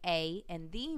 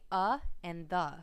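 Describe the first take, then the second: First: Both words are said with full ay and thee vowels. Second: Both words are said with a weak uh vowel. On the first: It sounds like reading aloud. The speaker calls it wrong. "sound like they're just reading to you" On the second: It sounds like talking to the listener. The speaker calls it right. "it's more natural and conversational"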